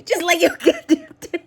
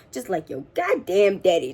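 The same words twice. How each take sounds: First: High voice collapsing into laughter; words swallowed by a laughing fit; breaking into laughter. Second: Said in the usual way. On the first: Real, not acted. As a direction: repeat it while cracking up.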